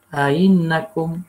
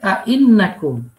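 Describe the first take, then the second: First: The middle glottal stop is softened, blended with y. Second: The middle glottal stop is fully pronounced. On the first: "Di antara ya dan huruf hamzah. Gabung antara ya dan huruf hamzah" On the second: "asalnya ainakum"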